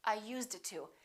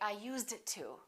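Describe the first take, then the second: The two takes are said the same way.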